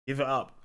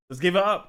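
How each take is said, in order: First: Said in the usual way. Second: Calling out. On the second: Real, not acted. Calling for applause.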